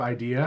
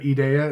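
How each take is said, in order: First: The word is said with English-sounding vowels. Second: The word is said with Spanish-sounding vowels. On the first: "instead of idea" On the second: "it sounded like you said idea"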